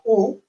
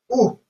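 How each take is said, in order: First: The vowel is short and unstressed. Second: The vowel is long and stressed. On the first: "la U corta o sin acento" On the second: "la U acentuada"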